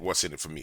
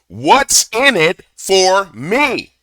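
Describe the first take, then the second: First: It is said at a normal, quiet volume. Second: It is screamed in a loud, raised voice.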